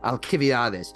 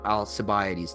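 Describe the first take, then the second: First: The name is said in a Greek way. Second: The name is said in the usual English way. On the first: The speaker calls it right. "is is the the Greek uh pronunciation" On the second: The speaker calls it wrong. "they say Al- Alcibiades. That's not how you pronounce it in Greek"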